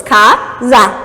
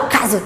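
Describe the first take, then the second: First: "Casa" in two separate beats, "ca... za"; split into syllables. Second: Said in the usual way. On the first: Shown as a demonstration. Teacher counts syllables for students, "Casa" broken in two. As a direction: pause between "ca" and "za" in "Casa". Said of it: "Eu tenho duas sílabas". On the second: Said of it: "tipo, tudo uma vez só".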